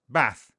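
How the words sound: It has the short Liverpool vowel.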